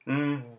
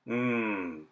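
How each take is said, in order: First: A blocked hum that soon dies out. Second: A steady hum flows freely through the nose. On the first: "plug your nose and make the same mmm sound" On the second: "Make an mmm sound normally by closing your lips"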